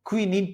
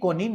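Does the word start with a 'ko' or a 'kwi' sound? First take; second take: kwi; ko. First: The word begins with a 'kwi' sound. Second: The word begins with a plain 'ko' sound. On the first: The speaker calls it right. "बल्कि इसको क्विनीन पढ़ा जाता है" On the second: The speaker calls it wrong. "ये कोनिन नहीं है"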